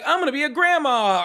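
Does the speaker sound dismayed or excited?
excited. The voice sounds happy and excited. The news is welcome. "depending on which tone you say that in"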